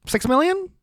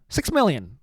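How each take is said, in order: First: High, rising incredulous question; mock disbelief. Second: Said in the usual way. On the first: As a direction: act shocked by the number, voice jumping up.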